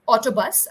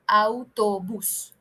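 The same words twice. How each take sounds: First: It is pronounced with English vowel sounds. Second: It is pronounced with Spanish vowel sounds. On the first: "I'm saying autobus in English" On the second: "In Spanish, all it becomes autobus"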